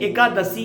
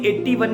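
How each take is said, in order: First: The word is said as 'ekadashi'. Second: The word is said as 'ikyasi'. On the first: The speaker calls it right. "एकादशी है" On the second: The speaker calls it wrong. "इक्यासी इक्यासी नहीं है"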